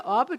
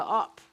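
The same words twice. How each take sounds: First: Said in the usual way. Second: Op said short, one syllable, no final e; clipped dialect op instead of standard oppe; the Jutlandic op with the ending dropped; West Jutland dialect form. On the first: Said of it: "det hedder jo ikke". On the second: Shown as a demonstration. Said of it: "det hedder op".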